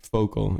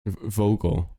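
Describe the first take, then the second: First: Vocal said with an f sound, foh-kul; Vocal with an f at the start, in a Dutch accent; Dutch pronunciation. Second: Vocal said with a clear v sound, voh-kul; vocal with a deliberate English v; careful English v. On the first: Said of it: "Is that how I talk?". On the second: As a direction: correct yourself and land a proper v in vocal. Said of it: "Maybe it's just a Dutch thing". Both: Shown as a demonstration.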